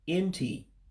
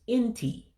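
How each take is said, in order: First: The pitch stays low without jumping up. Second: The pitch jumps up sharply at the end. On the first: It means cheek. "if you say it as the following, N T, you're saying cheek" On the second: It means ear. "you have to actually go up an octave when you say uh, the word"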